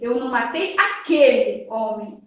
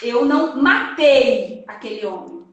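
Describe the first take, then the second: First: The stress falls on the word aquele. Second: The stress falls on the word matei. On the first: The speaker killed a different man. "a gente vai colocar no aquele" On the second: The speaker harmed him in another way but did not kill. "eu vou colocar a palavra tônica dessa frase no matei"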